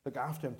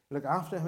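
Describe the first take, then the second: First: Said in the usual way. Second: Louder, firmer "Look after him"; emphatic instruction. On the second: Retold or imitated. Samaritan charging the innkeeper to care, emphatic and louder.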